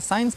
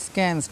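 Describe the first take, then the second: First: It begins with a plain s sound. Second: It begins with an sk sound. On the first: The speaker calls it right. "साइंस पढ़ना है" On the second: The speaker calls it wrong. "बहुत से बच्चे इसको स्कैंस पढ़ते हैं"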